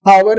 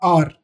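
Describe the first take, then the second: First: The word is said as 'awar'. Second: The word is said as 'aar'. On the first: The speaker calls it wrong. "आवर नहीं पढ़ते हैं इसे हम" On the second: The speaker calls it right. "H silent होता है, आर"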